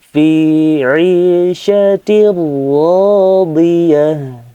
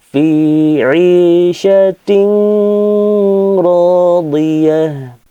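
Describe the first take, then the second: First: The n sound merges into the following r. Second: The n sound is said separately before r. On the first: The speaker calls it right. "langsung dileburkan ke huruf lam atau ro" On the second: The speaker calls it wrong. "Tidak boleh dibaca seperti itu"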